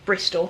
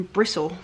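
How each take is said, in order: First: "Bristol" with the t clearly sounded; standard Bristol pronunciation. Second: "Bristle" said the local way, with the t dropped; local Bristol pronunciation. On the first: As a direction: say "Bristol" as BRIS-tol for outsiders. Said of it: "to those who don't know that". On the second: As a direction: say "Bristle" as BRISS-ul, West Country style. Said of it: "Bristol, to those who don't know that". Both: Shown as a demonstration.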